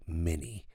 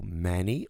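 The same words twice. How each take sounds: First: "many" with a closed, tight first vowel, close to an I. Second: "many" with an open, wide first vowel. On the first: Teacher shows the closed variant. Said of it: "um pouco mais fechado". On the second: Teacher shows the open way to say it. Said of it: "você pode abrir um pouco". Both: Shown as a demonstration.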